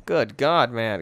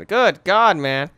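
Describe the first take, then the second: First: Said in the usual way. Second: GOOD GOD higher and louder, dropping on man; emphatic exclamation. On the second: Real, not acted. Gamer reacting to his room, loud emphatic exclamation.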